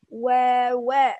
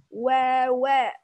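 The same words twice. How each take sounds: The two takes are said the same way.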